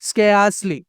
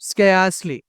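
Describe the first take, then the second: The two takes are said the same way.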